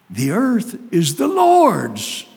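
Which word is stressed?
Lord's. The stress is on "Lord's".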